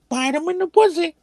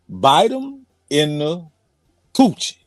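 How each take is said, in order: First: The phrase is said quickly and run together. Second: The phrase is said slowly and deliberately. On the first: "in his own voice, it would sound like this" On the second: "slow it down"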